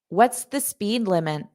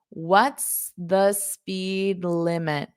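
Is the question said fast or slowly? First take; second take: fast; slowly. First: It is said at a fast natural speed. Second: It is said slowly and deliberately.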